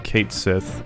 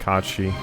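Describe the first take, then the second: First: It is said as two words, Kate Sith. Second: It is said as one word, Kachi. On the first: This is the childhood habit, not the actual form. The speaker calls it wrong. "like I always did as a kid" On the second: This is the actual pronunciation. The speaker calls it right. "the actual pronunciation is Kachi"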